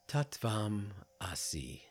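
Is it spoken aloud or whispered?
aloud. It is spoken aloud in full voice.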